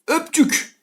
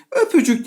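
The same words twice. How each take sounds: First: A light, higher Öpçük, two syllables; wrong form Öpçük. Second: Öpücük with the middle ü sounded, a laugh in it; three clear syllables in öpücük; right form öpücük. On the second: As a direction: demo of the correct öpücük. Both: Shown as a demonstration. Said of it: "öpücük diye karşımıza çıkacak".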